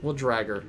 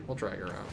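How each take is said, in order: First: Said in the usual way. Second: We'll drag her out dropped much softer and lower; quiet mock threat. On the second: Real, not acted. Streamer teasing chat with a much softer mock menace. Threatening to fetch absent friend.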